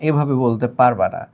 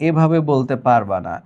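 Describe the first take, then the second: The two takes are said the same way.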